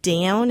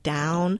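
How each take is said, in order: First: The vowel starts with a fronted ao sound. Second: The vowel is a plain ow sound.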